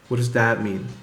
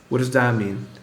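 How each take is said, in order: The two takes are said the same way.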